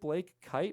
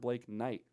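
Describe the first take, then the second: First: The surname begins with a K sound. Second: The surname begins with an N sound. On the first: The speaker calls it right. "It's Blake Kite" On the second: The speaker calls it wrong. "I've been saying it wrong this whole time"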